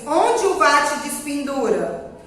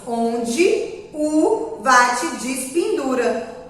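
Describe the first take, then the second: First: Unstressed vowels keep their full written sounds. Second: Unstressed e sounds like i, o like u. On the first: "nós escrevemos" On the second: "mas pronunciamos"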